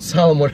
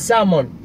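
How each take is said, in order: First: The l sound is pronounced in the word. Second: The l sound is left out entirely. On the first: The speaker calls it wrong. "It's not salmon" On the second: The speaker calls it right. "with silent L"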